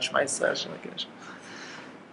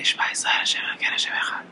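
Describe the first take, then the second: First: Unvoiced, fading whisper; whispered, not out loud. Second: Breathy whisper of the verse; whispered, not out loud. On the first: Teacher whispers Shema to show the quiet way. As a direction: whisper it away, slowing at the end. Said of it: "of course you should say out loud". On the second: Teacher whispers the wrong way to pray. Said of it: "not to say". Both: Shown as a demonstration.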